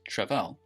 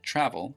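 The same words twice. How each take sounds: First: The stress is on the second syllable. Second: The stress is on the first syllable. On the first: The speaker calls it wrong. "It's not pronounced travel" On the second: The speaker calls it right. "The stress is on the first syllable"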